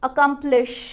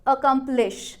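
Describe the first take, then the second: First: All syllables are said with equal, even stress. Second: The same.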